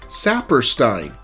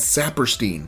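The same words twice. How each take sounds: First: The 'ei' in the name sounds like 'eye'. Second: The 'ei' in the name does not sound like 'eye'. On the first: This follows the German spelling rule. "it is pronounced I, Einstein, or Saperstein" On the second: This is how people who knew him said it. "they consistently pronounce his name as Saperstein"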